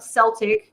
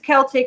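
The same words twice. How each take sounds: First: The word begins with a soft S sound. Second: The word begins with a hard K sound. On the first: The speaker calls it wrong. "not Celtic" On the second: The speaker calls it right. "It's a hard C"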